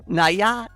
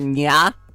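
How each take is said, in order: First: The word is said as two syllables. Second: The word is said as one syllable. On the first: "I was saying naya before" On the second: "for nya"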